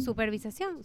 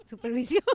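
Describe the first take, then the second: First: "supervisación" with an extra "sa", questioning rise; wrong word form. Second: "supervisión" without the extra "sa", rising; corrected word form. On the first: Friend checks her own word, doubtful "supervisación". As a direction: try out "supervisación", unsure. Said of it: "su-, supervisión". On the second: Friend corrects herself, tentative "supervisión". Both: Real, not acted.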